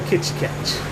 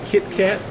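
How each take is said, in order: First: It is said with a Brazilian Portuguese accent. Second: It is said with an English accent. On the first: "if you come to Brazil, they call it Kit Kat" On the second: "You have Kit Kat"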